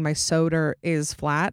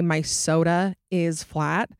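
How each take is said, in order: First: An R sound links soda and is. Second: Soda and is are joined without an R sound.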